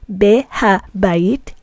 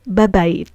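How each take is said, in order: First: It begins with the full syllables be-ha. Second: It begins with the single merged syllable ba. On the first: "instead of saying behabayit" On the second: "we say babayit"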